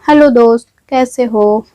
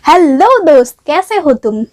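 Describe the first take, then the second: First: The greeting is said in a plain, flat way. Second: The greeting is said in an energetic, lively way.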